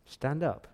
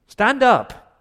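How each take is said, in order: First: A quiet word before the shout; quiet command. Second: High and loud STAND UP; shouted command. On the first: God quietly telling Joshua to get up. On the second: God shouting at Joshua to get off the floor. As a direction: bark it out, jolting him up. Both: Retold or imitated. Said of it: "the tone of his voice was in verse ten".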